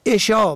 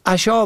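First: عشا as "eshā"; short "e" opening عشا; kasra on first letter. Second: عشا as "ashā"; fatha on first letter. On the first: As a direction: say عشا as e-shā. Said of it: "به کسر اول". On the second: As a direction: open "a" opening عشا. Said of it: "به فتح اول". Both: Shown as a demonstration.

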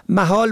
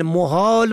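First: محال as "mahāl"; fatha on first letter. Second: محال as "muhāl"; rounded "u" after the m in محال; damma on first letter. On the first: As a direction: open "a" after the m in محال. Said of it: "به فتح اول". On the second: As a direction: say محال as mu-hāl. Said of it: "به ضم اول". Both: Shown as a demonstration.

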